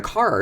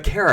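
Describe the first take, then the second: First: Cara as CAR-uh; contrasted name. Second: Kara as CARE-uh; contrasted name. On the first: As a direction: give Cara a clear AH vowel. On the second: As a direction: give Kara a clear AIR vowel. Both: Retold or imitated. Arguing these are different names, contrasted name. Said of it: "are two different names".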